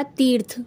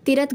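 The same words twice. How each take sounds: First: तीर्थ with long ee, one syllable, "teerth"; correct form. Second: तीर्थ as two short syllables, "ti-rath"; wrong form. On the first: Teacher giving the correct word, तीर्थ as teerth. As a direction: hold the ee in तीर्थ. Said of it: "सही जो शब्द होगा". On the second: Teacher rejecting the wrong word, तीर्थ as ti-rath. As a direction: break तीर्थ into 'ti-rat'. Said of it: "गलत है". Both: Shown as a demonstration.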